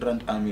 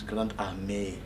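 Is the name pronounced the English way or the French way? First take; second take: English; French. First: The name is pronounced the English way. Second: The name is pronounced the French way. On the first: The speaker calls it wrong. "It's not Grand Army" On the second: The speaker calls it right. "it's Grand Army, like A-R-M-E with a Apple logo"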